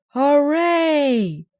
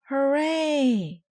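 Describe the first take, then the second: First: Much higher and much louder hooray; crowd roar. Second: High, loud hooray; fans cheer. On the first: Fans roaring for the Boomers, a huge loud hooray. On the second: Fans cheering the Mites, loud high hooray. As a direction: cheer like a stadium crowd. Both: A narrator's reading. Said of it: "shouted the fans".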